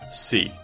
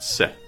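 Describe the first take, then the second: First: The syllable is stressed with a full vowel. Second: The syllable is unstressed with a reduced vowel. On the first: The speaker calls it right. "The emphasis is on the first syllable" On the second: The speaker calls it wrong. "not se"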